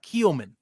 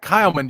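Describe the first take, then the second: First: The first vowel sounds like 'ee'. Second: The first vowel sounds like 'eye'. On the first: The speaker calls it wrong. "It's not Keelman. Don't say Keelman" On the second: The speaker calls it right. "that is how you say it"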